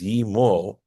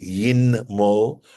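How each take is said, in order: First: No n sound is heard before the m. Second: An n sound is heard before the m. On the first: "You notice that the nun has dropped out there" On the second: "It really technically would be yin mo"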